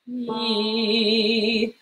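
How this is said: The vowel starts smoothly with the breath.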